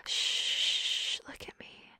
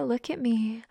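First: Soft breathy whisper. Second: Said in the usual way. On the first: Acted. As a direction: drop to a bare whisper. Voiced command, then whispered.

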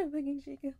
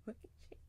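First: Said in the usual way. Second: Breathless whispered repeat; much softer, a spent whisper. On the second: Acted. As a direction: drop to an unvoiced whisper on "I'm fucking shaking".

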